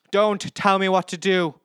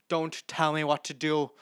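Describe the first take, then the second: First: "Don't tell me what to do" yelled higher and louder; loud, furious "Don't tell me what to do"; angry shout. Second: Said in the usual way. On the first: Retold or imitated. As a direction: hit "tell" hard and loud. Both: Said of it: "This is from Big Boss".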